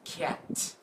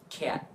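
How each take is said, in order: First: The final t is fully released. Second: The final t is cut off, not released. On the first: The speaker calls it wrong. "We don't say t, not cat" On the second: The speaker calls it right. "but just cat"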